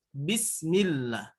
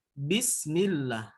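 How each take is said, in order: Both takes have the same delivery.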